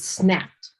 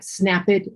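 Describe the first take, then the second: First: The ending is pronounced as a short T sound. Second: The ending is pronounced as an extra syllable. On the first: The speaker calls it right. "it's just a D or a T ending" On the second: The speaker calls it wrong. "That's not that's not correct"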